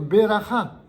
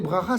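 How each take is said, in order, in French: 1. Une voyelle brève sépare les deux premières consonnes. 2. Les deux premières consonnes se prononcent l'une après l'autre, sans voyelle. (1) "ça devrait se dire beracha" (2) "les gens diront ... une bracha"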